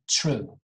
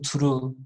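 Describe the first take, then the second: First: It begins with a ch sound. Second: It begins with a plain t sound. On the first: "I'm saying true. Ch, ch" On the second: "I'm not saying true"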